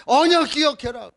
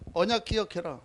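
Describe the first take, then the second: First: Emphatic reminder. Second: Quietly, almost to himself: remember the covenant; hushed and low, let 언약 fall gently; soft reminder. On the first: Pastor urging the congregation, emphatic and raised. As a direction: proclaim it firmly to the whole room. Repeated covenant reminder, second louder. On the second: Pastor to congregation, a soft low reminder. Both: Acted.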